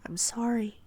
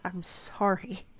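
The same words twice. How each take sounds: First: Said in the usual way. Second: I'M SORRY drawn out slowly in disbelief; puzzled echo. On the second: A narrator's reading. Narrator doubts Ophelia's apology, puzzled slow "I'm sorry". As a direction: stretch "I'm sorry" slowly into a baffled question.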